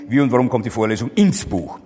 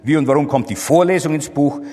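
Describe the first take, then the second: First: The stress is on the word Buch. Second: The stress is on the word Vorlesung. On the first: The question is about the book as destination. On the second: The question is about the lecture itself.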